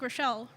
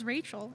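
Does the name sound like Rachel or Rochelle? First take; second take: Rochelle; Rachel. First: The name sounds like Rochelle. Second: The name sounds like Rachel. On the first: The speaker calls it wrong. "it looks like Rochelle" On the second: The speaker calls it right. "pronounce it right and pronounce it as Rachel"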